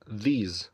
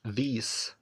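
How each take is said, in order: First: The word ends with a z sound. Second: The word ends with an s sound. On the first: The speaker calls it right. "لا بنقولها z" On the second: The speaker calls it wrong. "ما بنقولش these"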